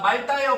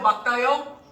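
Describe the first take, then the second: First: The first syllable ends with an l sound. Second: The first syllable ends with a k sound. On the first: The speaker calls it wrong. "솔직히 말다가 더 너네가 많이 사용해요" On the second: The speaker calls it right. "막다입니다"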